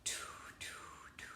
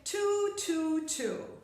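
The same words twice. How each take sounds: First: It is whispered without voice. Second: It is said in a normal voice.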